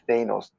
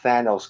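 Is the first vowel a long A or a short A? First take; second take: long A; short A. First: The first vowel is a long A. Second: The first vowel is a short A. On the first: The speaker calls it wrong. "not long Thanos" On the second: The speaker calls it right. "Short A"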